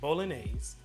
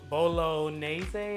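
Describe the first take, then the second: First: It is pronounced differently from how it looks. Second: It is pronounced the way the spelling looks. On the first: The speaker calls it right. "It's bolognese" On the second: The speaker calls it wrong. "It's not bolognese, or however it looks like it's pronounced"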